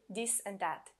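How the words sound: The th is replaced by a d sound.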